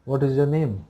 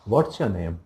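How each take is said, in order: First: What and is are said as separate words. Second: What and is are joined into one syllable. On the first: A plain beginner phrasing. "व्हाट इज़ your name एक simple सा beginner sentence है" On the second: A more stylish everyday spoken phrasing. "You can try this one"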